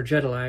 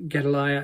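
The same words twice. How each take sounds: First: "Gedaliah" begun with a J sound; soft G Gedaliah. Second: "Gedaliah" begun with a hard G. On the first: Preacher correcting how he says the governor's name, soft-G "Gedaliah". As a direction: say "Gedaliah" as if spelt Jedaliah. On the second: Preacher naming the governor at Mizpah, hard-G "Gedaliah". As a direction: say "Gedaliah" with a G as in get. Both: Real, not acted. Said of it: "I should say".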